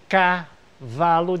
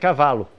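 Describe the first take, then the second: First: The stress is on the first syllable. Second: The stress is on the second syllable. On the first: The verse shifts the stress to fit the meter. "a sílaba de cavalo foi trazida para o K" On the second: This is the word's normal stress. "E a sílaba tônica é cavalo"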